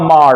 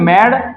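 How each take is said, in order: First: The vowel is a long open 'ah' sound. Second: The vowel is a short front 'a' sound. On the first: The speaker calls it wrong. "ना माड होगा" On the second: The speaker calls it right. "यहां पे बोलेंगे मैड"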